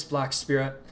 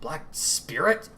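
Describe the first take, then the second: First: A firm named address; calling a name. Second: Slow, questioning repeat, Spirit rising; puzzled repeat. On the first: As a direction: call the title out across the field. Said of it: "a woman's voice call". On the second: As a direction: turn the name over in disbelief. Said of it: "Mako repeated". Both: Acted.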